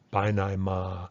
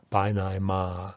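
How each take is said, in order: The two takes are said the same way.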